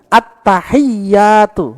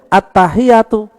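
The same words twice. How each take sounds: First: The y sound is held long and doubled. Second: The y sound is short and single. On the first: The speaker calls it right. "Ada dua tasdid" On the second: The speaker calls it wrong. "Enggak boleh"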